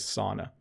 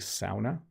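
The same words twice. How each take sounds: First: It is pronounced the common Canadian way. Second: It is pronounced the way Scandinavians say it. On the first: This is how most Canadians say it. "the improper but most common pronunciation is sauna" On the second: This is how people from Scandinavian countries say it. "I think they say sauna"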